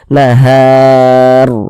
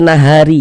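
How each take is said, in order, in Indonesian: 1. Kata ini berakhir pada bunyi r. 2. Kata ini berakhir dengan tambahan vokal i. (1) "berhenti kita tepat di huruf ro, kita baca nahar" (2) "Jangan dibaca nahari"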